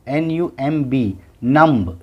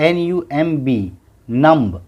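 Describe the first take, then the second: Both takes have the same delivery.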